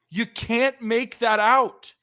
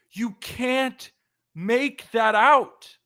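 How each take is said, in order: First: Slow, higher disbelieving complaint; exasperated. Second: High, very slow, rising to loud on the last words; anguished disbelief. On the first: Host groaning at the final out on the bases, exasperated. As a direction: stretch it out in disbelief. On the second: Host repeating the baserunning blunder to cohost, anguished. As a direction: wail it out in pained disbelief. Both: Real, not acted.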